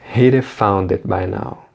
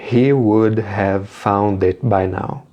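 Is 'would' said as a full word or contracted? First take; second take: contracted; full. First: Would is shortened to a d joined to he. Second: Would is said in full as a separate word. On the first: "Mas ele utiliza a contração he'd" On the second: "A frase sem a contração ficaria"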